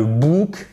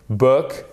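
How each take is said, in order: First: "book" with a long French "ou", like "bouk"; wrong French-style book. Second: "book" with a short English vowel; correct English book. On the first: Teacher shows learners what to avoid, French-style mispronunciation. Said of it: "c'est pas de book". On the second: Teacher models the English word for French learners, correct pronunciation. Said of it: "et pas de book". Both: Shown as a demonstration.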